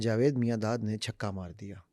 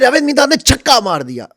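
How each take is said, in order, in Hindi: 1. यह सपाट, ऊबे हुए लहजे में कहा गया है। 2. यह जोशीले, उत्साहित लहजे में कहा गया है। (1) "ऐसा लग रहा है बिल्कुल सीरियस बंदा बैठा है, बोर कर रहा है" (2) "वो एक एक्साइटमेंट है"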